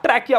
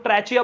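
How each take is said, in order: First: ट्रैकिया with a hard "k" in the middle; hard k pronunciation. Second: ट्रैचिया with a "ch" sound in the middle; ch pronunciation. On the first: Teacher telling students to say trachea as ट्रैकिया, with a "k". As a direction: say ट्रैकिया, "k" as in key. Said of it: "आप ट्रैकिया बोलो". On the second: Teacher quoting how some people say trachea, ट्रैचिया with a "ch". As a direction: say ट्रैचिया, "ch" as in chair. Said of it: "ट्रैचिया बोलते हैं". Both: Shown as a demonstration.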